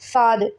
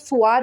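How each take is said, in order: First: No w-glide follows the first consonant. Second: A w-glide follows the first consonant. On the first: This is how it is read in Arabic. The speaker calls it right. "ये पढ़ा इस तरह से है" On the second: This is how it is said in Urdu. The speaker calls it wrong. "स्वाद नहीं है ये, वो उर्दू में बोला जाता है"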